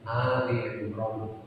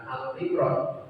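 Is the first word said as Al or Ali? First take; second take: Ali; Al. First: The first word is said ending in an i sound. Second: The first word is said without a final vowel. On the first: The speaker calls it right. "tetapi Ali Imran" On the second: The speaker calls it wrong. "bukan Al Imran"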